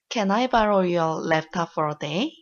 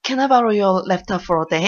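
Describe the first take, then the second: First: It is said carefully and politely. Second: It is said hurriedly and faster, with urgency.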